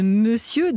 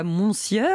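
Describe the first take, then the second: First: Said in the usual way. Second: "monsieur" as "mon-sieur", final R sounded; spelling pronunciation. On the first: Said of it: "le mystère du R". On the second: Shown as a demonstration. Host summing up the mystery of the R, "monsieur" said as spelt. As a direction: pronounce every letter of "monsieur", R included. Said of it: "le mystère du R de monsieur".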